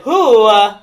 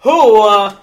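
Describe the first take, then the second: First: Loud "who", then a halting "uh"; botched accent sliding into a celebrity voice; Christopher Walken. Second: Loud, hammed-up Italian accent; terrible Italian accent. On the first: Acted. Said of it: "no, that's Christopher Walken". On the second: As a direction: put on a bad stage Italian. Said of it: "is in a terrible Italian accent".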